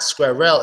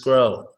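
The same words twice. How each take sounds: First: A gap or extra vowel separates R and L. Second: R and L run together without a gap. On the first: The speaker calls it wrong. "they like put a space between the R and L" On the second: The speaker calls it right. "It's just one straight word"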